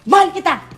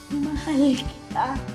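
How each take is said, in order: First: It is said heavily, directly and fast. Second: It is said heavily, indirectly and slowly.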